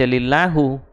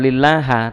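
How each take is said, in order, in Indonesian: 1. Kata lillahi diakhiri dengan vokal u. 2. Kata lillahi diakhiri dengan vokal a. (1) "jangan dibaca lillahu" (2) "atau lillaha"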